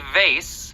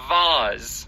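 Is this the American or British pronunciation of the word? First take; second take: American; British. First: The word has an American pronunciation. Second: The word has a British pronunciation. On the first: "which is the more common American pronunciation" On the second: "which is more common in the U K"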